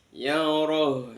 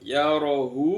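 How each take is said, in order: First: The word stops short on the final h sound. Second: The word ends with a lengthened u vowel. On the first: The reader pauses at the end of the verse. "kalau diwakafkan ya mati jadi hak hak yang mati yaroh" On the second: The reading continues without stopping. "Itu kalau dibaca yarohu itu menjadi mat silat"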